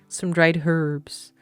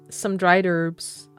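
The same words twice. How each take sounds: First: It is said in a non-American accent. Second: It is said in an American accent.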